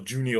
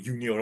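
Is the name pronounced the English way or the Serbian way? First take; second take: English; Serbian. First: The name is pronounced the English way. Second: The name is pronounced the Serbian way.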